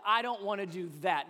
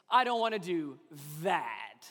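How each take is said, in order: First: Said in the usual way. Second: Whiny groan on "that"; stress on that. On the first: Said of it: "We say it a little bit differently". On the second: Shown as a demonstration. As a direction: land heavily on "that".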